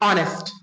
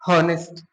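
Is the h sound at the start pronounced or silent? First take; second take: silent; pronounced. First: The word starts with a vowel, no h. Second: The word starts with an audible h sound. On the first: The speaker calls it right. "एच होता है जो अनुचरित, मतलब silent होता है" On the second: The speaker calls it wrong. "कुछ बच्चा है जो क्या पढ़ता है इसको"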